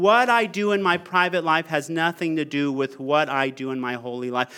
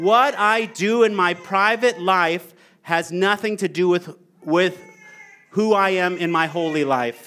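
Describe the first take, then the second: First: Quick, fluent reading, falling lower at the end; smooth re-read. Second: Halting read with pauses mid-phrase; deliberate reading that catches partway through; stumbling read. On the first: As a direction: read it straight through without pauses. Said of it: "Can I read that again?". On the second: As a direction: stumble on "with", pause, then restart. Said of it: "felt like I stumbled over that". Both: Real, not acted.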